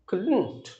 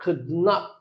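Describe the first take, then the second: First: Not is contracted onto could as one word. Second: Not is said as a separate full word. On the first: "when it is a short form it should be that is couldn't" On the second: "যখন long ফর্মে বলবো, long form"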